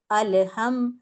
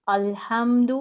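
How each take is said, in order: First: الحم with the لام bounced as a wrong echo; wrong qalqala. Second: الحمد with a firm, still لام and no bounce; correct recitation. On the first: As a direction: show the mistake, bounce on the لام. (لام پر غلط قلقلہ) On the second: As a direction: hold the لام steady with sukoon. (لام پر جماؤ، بغیر قلقلہ) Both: Shown as a demonstration. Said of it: "اس طرح نہیں پڑھنا".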